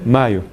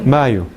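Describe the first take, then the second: No difference in how they are said.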